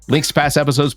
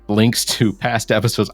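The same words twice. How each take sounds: First: The phrase is read at a fast pace. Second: The phrase is read at a slow pace. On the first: The speaker calls it right. "I'm going to read it faster" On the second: The speaker calls it wrong. "I don't know why I'm reading it slower"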